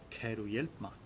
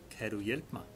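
The two takes are said the same way.

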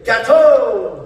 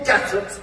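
First: The final x is silent. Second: The final x is pronounced as a sound. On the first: The speaker calls it right. "In France, the X is silent. We say" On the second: The speaker calls it wrong. "we do not say gattox"

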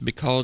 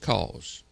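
First: The word is said in full, with both syllables. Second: The word is clipped, the first syllable dropped. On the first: This is how northern speakers say it. "If you're from the north, it's because" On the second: This is how southern speakers say it. "If you're from the south, it's just cause"

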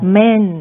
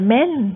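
First: The word sounds displeased and dismissive. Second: The word sounds eager and delighted. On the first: She does not like men. "คนแรกนี่นะคะก็ไม่ชอบอะนะคะ" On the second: She likes men. "คนที่สองนี่ตาลุกวาวเลย"

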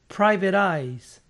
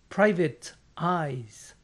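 First: The two words are joined together. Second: The two words are said separately. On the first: The speaker calls it right. "tienden a unir las palabras" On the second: The speaker calls it wrong. "prácticamente nadie pronuncia esto"

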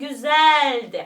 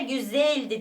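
First: The e vowel is open and wide. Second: The e vowel is closed and narrow. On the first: The speaker calls it right. "Açık e kullanıyorum ki daha böyle büyük duyulalım" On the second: The speaker calls it wrong. "Güzeldi demeyelim"

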